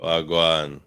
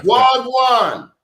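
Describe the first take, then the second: First: Host echoing the Jamaican wagwan; a lighter Jamaican wagwan back; Jamaican accent. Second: Loud, high Jamaican wagwan; Jamaican accent. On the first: Retold or imitated. Host answering the greeting in a Jamaican accent. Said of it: "they crack on my Jamaican accent". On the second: Pretend. Defiantly greeting the host in Jamaican accent. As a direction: belt it out in Jamaican patois. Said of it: "my Jamaican accent".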